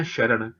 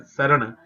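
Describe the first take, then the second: First: ਸ਼ਰਣ said with sh; ਸ਼ਰਣ with an sh at the start; wrong pronunciation. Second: ਸਰਣ said with a plain s, not sh; correct Gurbani pronunciation. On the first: Teacher showing the common mistake ਸ਼ਰਣ with sh. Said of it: "ਨਹੀਂ, ਉਹਨੂੰ ਸ". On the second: Teacher showing the sangat ਸਰਣ with a plain s. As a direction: say ਸਰਣ with a clear s sound. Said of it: "ਸਰਣ ਹੀ ਕਹਿਣਾ ਆਪਾਂ". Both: Shown as a demonstration.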